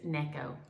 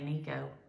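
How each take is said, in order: First: The first syllable sounds like 'neck'. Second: The first syllable sounds like 'knee'. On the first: The speaker calls it right. "it's Necco, like your neck" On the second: The speaker calls it wrong. "I don't know why I want to say Nico"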